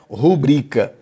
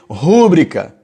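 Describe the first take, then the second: First: The stress does not fall on the first syllable. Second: The stress falls on the first syllable. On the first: The speaker calls it right. "o correto é rubrica, não tem acento agudo no U" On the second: The speaker calls it wrong. "você escrever rúbrica"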